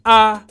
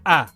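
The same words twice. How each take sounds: First: The pitch stays flat in the middle. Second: The pitch drops low. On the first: "the mid tone, when your the pitch of your voice remains flat" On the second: "the low tone, when your voice drops"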